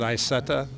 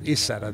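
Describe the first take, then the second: First: The first letter is sounded as 'eye'. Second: The first letter is not sounded as 'eye'. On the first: This is how Americans say the name. "We pronounce it Isetta" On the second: This is how Germans say the name. "they pronounce it Isetta. They don't pronounce the I"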